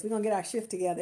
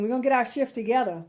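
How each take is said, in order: First: Softer, slipping "shift" in as a wink; sly quiet repeat. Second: Said in the usual way. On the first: Shown as a demonstration. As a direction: drop the voice and hint at the pun in "shift". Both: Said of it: "Watch this".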